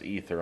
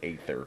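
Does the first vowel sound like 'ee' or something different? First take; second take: ee; different. First: The word begins with an 'ee' sound. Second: The word begins with a different vowel sound. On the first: This is how the movie says it. "I know it's pronounced Ether on the movie" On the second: This is how the speaker has always said it. "I've always been pronouncing it Aether"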